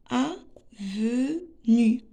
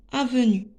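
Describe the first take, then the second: First: Avenue very slowly, a-ve-nue, with gaps; teacher sounding out avenue piece by piece; split into syllables. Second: Said in the usual way. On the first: Shown as a demonstration. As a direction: break avenue into three separate syllables. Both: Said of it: "on va découper les mots en syllabes".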